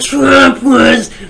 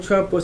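First: The name is said with anger and malice. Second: The name is said calmly, without anger. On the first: The speaker calls it right. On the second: The speaker calls it wrong.

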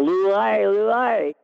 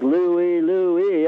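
First: It is yelled with strained, slurred enunciation. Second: It is said in a normal, clear speaking voice. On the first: "when your head's tipped all the way back and you're yelling up" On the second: "I would say it when I'm standing facing normal"

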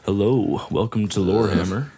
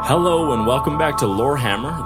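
First: It is said in a smooth jazz voice. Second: It is said in his normal voice.

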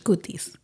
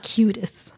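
First: It is said with Spanish pronunciation. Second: It is said with English pronunciation. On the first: The speaker calls it right. "you would actually pronounce that in Spanish" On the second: The speaker calls it wrong.

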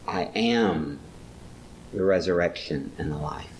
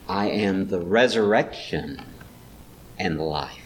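First: The stress is on the word am. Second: The stress is on the word resurrection. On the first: It is a present reality, not a future one. "it's not a future, it's a present reality" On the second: The point is the resurrection. "Maybe resurrection is where he puts the stress"

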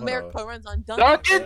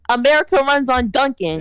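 First: It is said louder than normal conversation. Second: It is said at its loudest, almost shouted. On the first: The speaker calls it wrong. "say it louder" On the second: The speaker calls it right. "Say that shit louder again. For the people"

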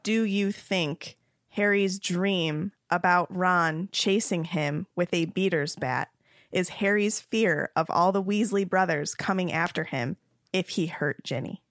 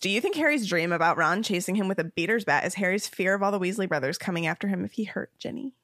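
First: The question is read more slowly. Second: The question is read very fast.

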